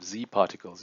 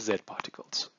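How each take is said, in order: First: The letter is pronounced the American way. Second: The letter is pronounced a non-American way.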